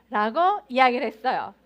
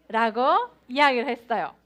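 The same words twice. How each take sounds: The two takes are said the same way.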